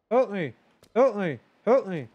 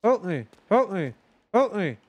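Both takes have the same delivery.

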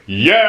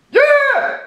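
First: Loud ordinary yell; plain shout. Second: Piercing very high scream; shrill high scream. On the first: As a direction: shout it out normally. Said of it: "That's something anybody can do". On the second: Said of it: "nobody can do that". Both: Shown as a demonstration.

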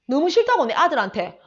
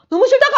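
First: Said in the usual way. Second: 확 높고 크게 '싫다고'를 내지름; 싫은 티를 내며 높게 소리쳐; 시어머니 흉내 외침. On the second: Retold or imitated. (높고 크게 외치는 시어머니 흉내)

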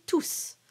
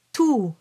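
First: "tous" with a clear final S; sounded final S. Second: "Tout" ending on the open vowel oo; silent final S. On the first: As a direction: finish "tous" on a hissed S. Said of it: "here you don't pronounce the S". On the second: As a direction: stop "Tout" on oo, no S. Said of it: "so you don't pronounce the S". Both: Shown as a demonstration.

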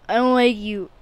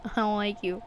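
First: Louder telling off; louder told-off line. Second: Said in the usual way. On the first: Real, not acted. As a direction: push it out louder. Louder repeat.

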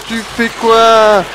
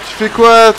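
First: Very slow, stretched "Tu fais quoi?"; dragged-out question. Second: Said in the usual way. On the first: Real, not acted. Gamer baffled by a useless companion, stretched-out question. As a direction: draw out every syllable of "Tu fais quoi?".

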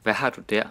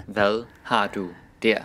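First: Said in the usual way. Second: "Hvad har du der" spaced out for learners; careful word-by-word pronunciation. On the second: Shown as a demonstration. Question repeated slowly, word by word.

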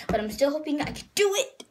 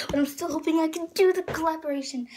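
First: "do it" jumps up high at the end; odd excited squeak. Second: Quick, high retake with pitch falling at the end; excited. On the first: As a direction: let your voice squeak upward on "do it". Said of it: "I don't know what that was". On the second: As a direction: rush it eagerly in a higher voice. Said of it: "I'm so excited". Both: Real, not acted.

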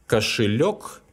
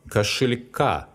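First: Кошелёк stressed on its last syllable, лёк; stress on final лёк. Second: Кошелька stressed on the final ка; stress moved onto ending. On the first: Teacher showing learners how stress changes, кошелёк stressed on лёк. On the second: Teacher showing learners the stress change, кошелька stressed on ка. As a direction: land the stress on the last а in кошелька. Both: Shown as a demonstration. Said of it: "the noun changes the stress".

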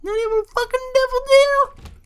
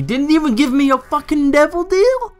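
First: Mock-irritated squeal, extremely high; exaggerated high voice. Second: Irritated high voice. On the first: Shown as a demonstration. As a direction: replay the complaint in absurd falsetto. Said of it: "My voice gets all high". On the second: Real, not acted. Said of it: "how my voice got higher".

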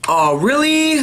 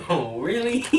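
First: High, loud indignant oh really; exaggerated disbelief; mock outrage. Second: Echoing it through laughter; teasing copy while laughing; laughing mimic. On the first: Real, not acted. Mock outrage at bad spin. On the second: Echoes friend laughing.

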